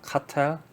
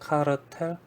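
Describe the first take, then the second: First: It is said smoothly in an English way. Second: Each syllable is spelled out in Korean style. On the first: "이게 영어로는 사실 카텔이라고 합니다" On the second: "한국식으로, 한국 사람들이 영어 발음을 하나하나 ... 풀어서 말하기 때문에"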